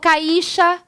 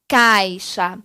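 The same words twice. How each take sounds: First: The i sounds as strong as the a. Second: The a sounds stronger than the i. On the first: The speaker calls it wrong. "Eu não falo caixa" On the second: The speaker calls it right. "Eu falo caixa"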